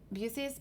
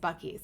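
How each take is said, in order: First: The middle consonant is an s sound. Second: The middle consonant is a k sound. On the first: The speaker calls it wrong. "I called it Busey's because I read it with the C" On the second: The speaker calls it right. "It's Bucky's"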